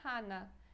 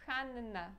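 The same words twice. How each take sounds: First: The n sound is short and single. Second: The n sound is long and doubled. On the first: The speaker calls it wrong. "Não é Hanna" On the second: The speaker calls it right. "a gente fala duas vezes essa letrinha N"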